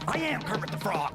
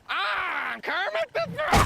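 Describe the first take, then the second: First: It is said in his normal voice. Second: It is said in a Kermit the Frog voice.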